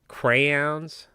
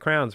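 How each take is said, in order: First: The word is said with two full syllables. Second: The word is said as one short syllable. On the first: The speaker calls it wrong. "Why are we adding all of that extra aeons on there?" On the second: The speaker calls it right. "It should be crowns"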